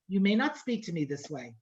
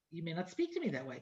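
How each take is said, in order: First: Low, steady, no-nonsense mother; firm rebuke. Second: Softer, fast, with a laugh; firm rebuke. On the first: Mother to her seventeen-year-old daughter, firm rebuke. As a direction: lay down the line calmly but firmly. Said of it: "that's exactly how I said it, that kind of tone of voice". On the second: Mother retelling her rebuke to a teen, softer and laughing. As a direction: redo the rebuke quickly, half laughing. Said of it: "I said". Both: Retold or imitated.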